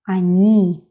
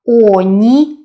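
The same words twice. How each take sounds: First: The stress is on the last syllable. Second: The stress is on the first syllable. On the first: The speaker calls it right. "the last syllable is stressed" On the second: The speaker calls it wrong. "not они"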